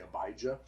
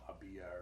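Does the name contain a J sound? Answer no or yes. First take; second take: yes; no. First: The name is said with a J sound. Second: The name is said without a J sound. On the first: This is how English speakers usually say it. "Most English speakers are going to say" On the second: This is closer to the original Hebrew. "Hebrew has no J, so it would have been"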